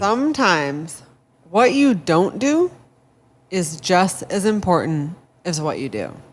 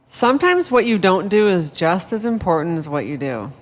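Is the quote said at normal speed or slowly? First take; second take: slowly; normal speed. First: It is said slowly. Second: It is said at a normal speed.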